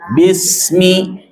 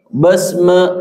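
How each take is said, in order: First: The vowels sound like i. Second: The vowels sound like e. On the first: The speaker calls it right. "tapi bismi" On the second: The speaker calls it wrong. "Jangan terdengar besme, bukan besme"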